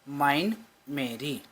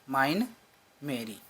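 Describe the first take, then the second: Both takes have the same delivery.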